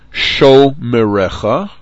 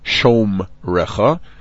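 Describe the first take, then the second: First: A short vowel sound follows the m. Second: No vowel sound follows the m. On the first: The speaker calls it right. "shomerecha, not shomrecha" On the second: The speaker calls it wrong. "not shomrecha, but somehow with an English language background, it's common to say that"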